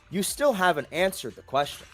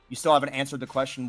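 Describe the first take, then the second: First: It is spoken at talking pace, acted like dialogue. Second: It is read quickly and flatly, like skimming. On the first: The character is imagined actually speaking. "as if Frontiers actually said out loud" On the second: It is just reading the text. "I don't read like"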